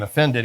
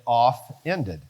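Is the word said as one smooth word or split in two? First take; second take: smooth; split. First: The word is said normally as one smooth word. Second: The word is split into 'off' and 'ended'.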